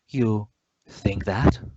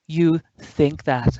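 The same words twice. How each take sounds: First: It sounds doubtful. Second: It sounds happy.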